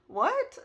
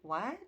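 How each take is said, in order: First: Very high, loud, astonished question; acted-out stunned yelp; shocked. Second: Said in the usual way. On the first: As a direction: exclaim it in sharp disbelief. Gasps, repeats her shocked reaction.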